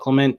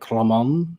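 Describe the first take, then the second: First: The name is said with English pronunciation. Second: The name is said with French pronunciation. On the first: "We call it Clement" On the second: "In French, it's like Clement or something"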